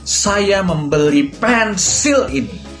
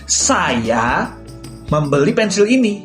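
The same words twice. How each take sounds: First: The word pensil is stressed. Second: The word saya is stressed. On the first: The thing bought was a pencil, not something else. "Aku akan menekankan kata pensil" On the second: It was the speaker who bought it, not someone else. "aku akan menekankan pada kata saya"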